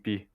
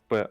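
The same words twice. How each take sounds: First: The letter is read the English way. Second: The letter is read the Russian way. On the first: "а в английском P" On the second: "в русском языке она читается как P"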